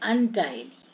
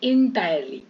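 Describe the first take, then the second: First: The first syllable is pronounced like 'un'. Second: The first syllable is pronounced like 'in'. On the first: The speaker calls it right. "इंटायरली नहीं है" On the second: The speaker calls it wrong. "अपन लोग ज्यादातर लोग इसको क्या बोलते हैं?"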